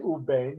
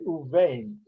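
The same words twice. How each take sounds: First: The consonant after 'u' is a hard b. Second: The consonant after 'u' is a soft v. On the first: The speaker calls it wrong. "you don't say u vain" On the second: The speaker calls it right. "you say u vain"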